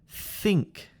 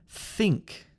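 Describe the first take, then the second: No difference in how they are said.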